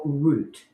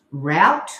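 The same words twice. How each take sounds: First: "route" rhyming with "boot"; ROOT pronunciation. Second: "route" rhyming with "out"; ROWT pronunciation. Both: Shown as a demonstration. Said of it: "Do you say".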